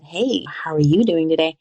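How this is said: It is said in a suggestive, loaded tone.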